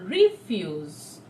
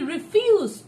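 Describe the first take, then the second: First: The stress is on the first syllable. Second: The stress is on the second syllable. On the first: It is used as a noun. "it's a garbage, it's a noun" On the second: It is used as a verb. "just shifted the stress from re to fuse"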